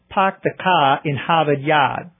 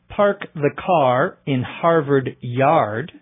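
First: The R sounds after vowels are dropped. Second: The R sounds after vowels are clearly pronounced.

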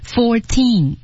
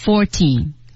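First: Both syllables carry stress. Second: The second syllable loses its stress. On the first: The speaker calls it right. "four 有一个重音，teen 有一个重音，fourteen，两个是重音" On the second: The speaker calls it wrong. "你稍微把后面那个重音读错，就变成了fourteen，完了"

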